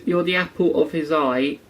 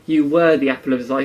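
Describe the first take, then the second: First: "You're" said as the present tense, lightly marked; present tense stress. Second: "were" punched louder and quicker as the past tense; past tense stress. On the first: Quoting the show's line to the viewer, present tense marked. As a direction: make "You're" sound present, not past. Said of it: "like, in the present tense". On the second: Contrasting the wrong past tense for viewers, stressed "were". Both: Shown as a demonstration.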